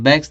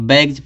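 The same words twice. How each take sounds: First: The word ends with an s sound. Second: The word ends with a z sound. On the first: The speaker calls it wrong. "बैग्स नहीं" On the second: The speaker calls it right. "बैग्स पढ़ा जाता है। इस जी का यस का उच्चारण क्या निकलेगा? जा निकलेगा"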